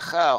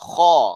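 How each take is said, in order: First: The consonant is said light and thin. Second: The consonant is said heavy and thick. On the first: The speaker calls it wrong. "Bukan kha" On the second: The speaker calls it right. "Kha huruf isti'la yang perlu kita sebut dengan tafkhim"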